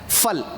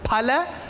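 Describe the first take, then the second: First: It is said in the shorter Urdu form. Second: It is said in the fuller Sanskrit form. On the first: "as you go from Punjabi to Urdu, and then it's beco- it becomes phal" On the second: "in Sanskritam it is phalam"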